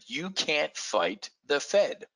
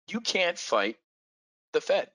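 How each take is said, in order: First: Said in the usual way. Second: You can't fight the Fed, slower with pauses; repeated slowly for emphasis. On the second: Shown as a demonstration. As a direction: stress on "fight" and "Fed", words spaced out.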